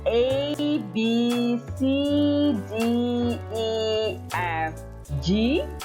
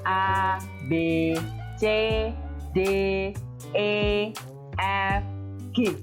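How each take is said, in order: First: The letters are named with English letter sounds. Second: The letters are named with Indonesian letter sounds. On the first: "jadi biasanya" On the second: "kalau dalam bahasa Indonesia"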